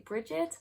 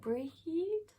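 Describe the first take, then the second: First: The name has two syllables with a G sound. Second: The name is one syllable with no G sound. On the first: "I have also heard some Irish speaking people say Brigid" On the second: "the G H is silent, so it would be pronounced like breed"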